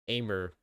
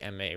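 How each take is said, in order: First: The name is said without a French pronunciation. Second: The name is said with a French pronunciation. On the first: "how everyone else says it" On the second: "the French is like Aimee"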